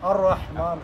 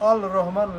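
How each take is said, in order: First: The l sound is absorbed into a doubled r. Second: The l sound of the article is heard. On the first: "লাম যেহেতু উচ্চারণ হইতেছে না এখানে, এই জন্য আর রহমান হইলো" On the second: "আসলে ছিল রহমান। আ- আল রহমান"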